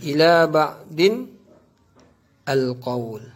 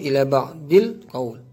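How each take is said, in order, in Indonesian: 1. Disambung menjadi 'din al' sebelum qawl. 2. Disambung menjadi 'dil' sebelum qawl. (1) "Tapi cara baca itu ialah salah" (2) "Tapi cara baca itu ialah salah"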